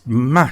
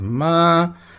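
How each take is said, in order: First: The syllable is said with an angry sound. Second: The syllable is said high and level. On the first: "que é o som bravo" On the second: "o som alto e plano, flat"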